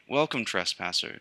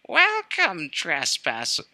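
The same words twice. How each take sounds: First: It is said in a plain, natural speaking voice. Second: It is said in a high, shrill put-on voice. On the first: "Actually, I'm not gonna do that voice" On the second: "Its voice is shrill"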